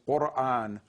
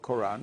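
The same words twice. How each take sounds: First: It starts with a throaty q sound. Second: It starts with a plain k sound. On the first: "its Arabic pronunciation is Quran, and that sound qa does not exist in English" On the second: "has been changed to ko- K, and the glottal stop is not used in English"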